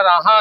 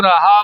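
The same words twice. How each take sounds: First: ਰਾਹਾ nasalised, as "raa-haan"; wrong reading demo. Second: ਰਾਹਾ as "ra-haa", without nasal ending; correct model reading. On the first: Teacher warning learners of the mistake, mispronunciation demo. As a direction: say ਰਾਹਾ like the word for paths. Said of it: "ਨਹੀਂ ਬੋਲਣਾ". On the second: Teacher showing learners the right reading, careful pronunciation. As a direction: say ਰਾਹਾ with an open final vowel. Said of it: "ਇਹਨੂੰ ਰਾਹਾ ਬੋਲਣਾ". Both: Shown as a demonstration.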